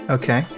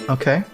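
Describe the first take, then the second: The two takes are said the same way.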